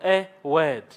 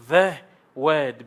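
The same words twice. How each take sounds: First: A set apart and stressed. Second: THE drawn out and stressed. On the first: Teacher contrasting a word with the word, stress on "a". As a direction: lean on the article "a". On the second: Teacher correcting a word to the definite one, stress on "the". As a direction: lean firmly on the article "the". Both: Shown as a demonstration. Contrasts indefinite with definite article.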